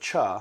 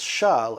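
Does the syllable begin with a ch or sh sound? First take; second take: ch; sh. First: It begins with a hard ch sound. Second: It begins with a soft sh sound. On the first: The speaker calls it wrong. "instead of Cha" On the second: The speaker calls it right. "it's Shah instead of Cha because that's the way you say it properly"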